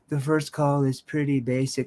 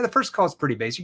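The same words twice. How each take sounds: First: It is said in a timid, unsure tone. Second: It is said in a firm, assertive tone. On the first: The speaker lacks confidence. The speaker calls it wrong. "like a timid weirdo" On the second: The speaker is a confident expert. The speaker calls it right. "My tone is assertive"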